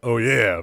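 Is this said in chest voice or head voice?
chest. It is said in a deeper chest voice. "Chest voice is like when you go, oh yeah"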